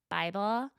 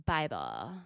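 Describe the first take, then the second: First: Said in the usual way. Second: "Bible." dropped very low; deadpan low "Bible." echo; low deadpan repeat. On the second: Shown as a demonstration. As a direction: echo "Bible." deep with a rise.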